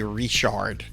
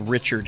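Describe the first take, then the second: First: The name is said in French style. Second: The name is said in plain English style. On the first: This is how locals in South Louisiana say it. "we say Richard" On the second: This is how it is said elsewhere. "we don't say Richard here"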